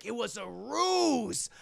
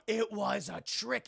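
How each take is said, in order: First: Slow, drawn-out mock-dramatic line; dramatic ruse. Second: Said in the usual way. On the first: Streamer retelling the twist, slow and theatrical. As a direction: savor the word ruse like a villain.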